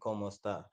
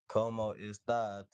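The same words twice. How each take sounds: First: It is said quickly and fluently. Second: It is said slowly and carefully.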